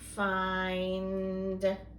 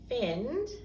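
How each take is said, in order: First: The vowel is long, like in 'fine'. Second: The vowel is short, like in 'fin'. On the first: The speaker calls it right. "try the other one" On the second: The speaker calls it wrong. "If we do the short vowel sound"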